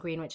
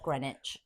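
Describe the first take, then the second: First: The word is pronounced the way it is spelled. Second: The word is not pronounced the way it is spelled. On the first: The speaker calls it wrong. "I was saying Greenwich" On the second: The speaker calls it right. "instead of Greenwich"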